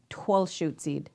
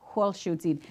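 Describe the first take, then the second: First: The name is said in the Puyallup regional form. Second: The name is said in the Muckleshoot regional form. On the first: "our Poyala Pobs relatives, they call it Twelshootzid" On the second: "our Buckleshoot relatives call it Wholshootzid"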